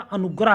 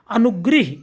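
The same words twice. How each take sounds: First: अनुग्रह said "anugrah", with a in the last syllable; correct vowel. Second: अनुग्रह said "anugrih", with i in the last syllable; wrong vowel. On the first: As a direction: end अनुग्रह on "grah". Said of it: "होता है". (अनुग्रह में ग्र के साथ अ) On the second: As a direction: put a short i into अनुग्रह. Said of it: "इस तरह नहीं". (अनुग्रह को अनुग्रिह जैसा) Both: Shown as a demonstration.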